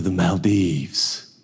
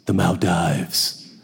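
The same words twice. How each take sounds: First: Maldives ending like "deeves"; long-E Maldives. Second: Maldives ending like "dives"; long-I Maldives. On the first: Man lists travel plans, Maldives said with an ee. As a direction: say "Maldives" with an ee in the last syllable. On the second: Man corrects his travel plans, Maldives said like dives. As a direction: slowly say "Maldives" to rhyme with "dives". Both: Shown as a demonstration. Says the name two ways.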